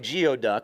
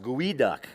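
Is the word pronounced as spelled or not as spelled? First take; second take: as spelled; not as spelled. First: The word is pronounced just as it is spelled. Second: The word is pronounced unlike its spelling. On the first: The speaker calls it wrong. "which is exactly how it looks" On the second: The speaker calls it right. "it is pronounced geoduck"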